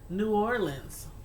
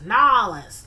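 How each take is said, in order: First: The name is said in full, several syllables. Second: The name is squeezed into two short syllables. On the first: This is how the speaker always said it. "all my life, always called it New Orleans" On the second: This is how many Southern people say it. "I started hearing people say, Nolans"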